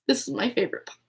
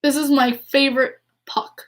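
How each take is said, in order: First: Much softer, tender repeat to herself; softer echo. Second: Said in the usual way. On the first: Shown as a demonstration. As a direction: say it again quietly, almost to the puck.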